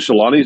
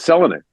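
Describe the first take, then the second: First: The stress falls on a later syllable. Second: The stress falls on the first syllable. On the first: The speaker calls it wrong. "we've said Teemu Selanne's name wrong for thirty years" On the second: The speaker calls it right. "the first syllable is always accented"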